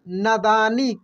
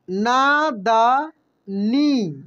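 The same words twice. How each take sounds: First: Said in the usual way. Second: नादानी drawn out very slowly, syllable by syllable. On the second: Shown as a demonstration. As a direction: sound out नादानी slowly for learners. (नादानी को धीरे धीरे अक्षर अक्षर बोलिए) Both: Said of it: "कैसे पढ़ेंगे हम लोग?".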